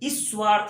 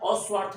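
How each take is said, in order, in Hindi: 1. s से पहले i स्वर जुड़ता है। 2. s से पहले a स्वर जुड़ता है। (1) "कभी हम लोग ई की ध्वनि का उच्चारण करने लगते हैं" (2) "कभी उसके आगे हम लोग अ का और अ की ध्वनि का उच्चारण करने लगते हैं"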